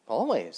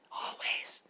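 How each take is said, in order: First: Louder, proud Grasshopper voice; firm loud always. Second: Whispered always. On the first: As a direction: declare always with conviction. Grasshopper answers loudly. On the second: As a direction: breathe the word always like a tiny butterfly. Butterflies whisper, Grasshopper loud. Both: Acted.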